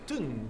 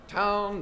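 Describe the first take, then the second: First: It has a Glasgow 'oo' vowel sound. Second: It has the standard 'ow' vowel sound.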